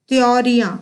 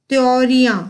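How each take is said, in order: No difference in how they are said.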